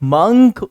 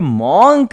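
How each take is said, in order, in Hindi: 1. इस स्वर की आवाज़ बिना गोल होंठों वाली 'uh' जैसी है। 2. इस स्वर की आवाज़ गोल होंठों वाली 'o' जैसी है। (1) "बल्कि इसको हम मंक बोलते हैं" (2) "ये मॉन्क नहीं"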